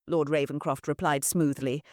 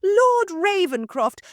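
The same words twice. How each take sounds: First: Said in the usual way. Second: High, loud, slow gushing address; fawning hostess. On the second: Acted. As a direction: stretch the lord's name out sweetly. Mother addresses lord.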